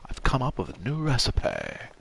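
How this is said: The word recipe is said in an exaggerated posh way. Only a very upper-class person would say it this way. The speaker calls it wrong. "You wouldn't say ... maybe if you're really posh"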